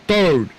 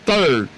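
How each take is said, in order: Both takes have the same delivery.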